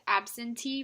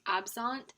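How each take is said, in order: First: The word ends with a final 'ee' vowel. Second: The word ends without a final 'ee' vowel. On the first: The speaker calls it wrong. "I pronounced absentee wrong" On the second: The speaker calls it right. "the correct way to say this um, word is absent"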